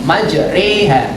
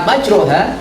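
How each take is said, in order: First: The vowel after r leans toward e. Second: The vowel after r is a plain open a. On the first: "dibaca dua per tiga" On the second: "bukan fathah"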